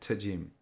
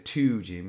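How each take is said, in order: First: The word 'to' has a weak, reduced vowel. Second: The word 'to' has a full, strong vowel. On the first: The speaker calls it right. "we say to Jim" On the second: The speaker calls it wrong. "we don't say to Jim"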